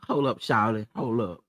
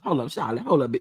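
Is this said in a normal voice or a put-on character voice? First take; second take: normal; put-on. First: It is said in the speaker's ordinary voice. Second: It is said in a put-on sugar mama voice.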